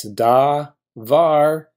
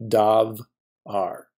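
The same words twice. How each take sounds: First: "da, var" broken before the v; correct syllable split. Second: "dav, ar" broken after the v; wrong syllable split. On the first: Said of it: "Every Hebrew syllable begins with a consonant". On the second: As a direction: close "dav" on v, pause, then a bare "ar". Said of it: "It is not going to be". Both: Shown as a demonstration.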